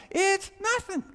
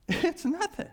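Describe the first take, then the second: First: Very high, loud cry of exasperation; exasperated outburst. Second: High exasperated squeak, easing off in volume; high-pitched repeat. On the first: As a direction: throw it out at the top of the voice. Climax of acted exasperation at self. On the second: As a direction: keep it high but let the force drop. Repeats the outburst, less loud. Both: Acted.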